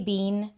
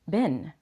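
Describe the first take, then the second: First: The word sounds like 'bean'. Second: The word sounds like 'bin'. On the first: The speaker calls it wrong. "That's it's just very British" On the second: The speaker calls it right. "bin or Ben"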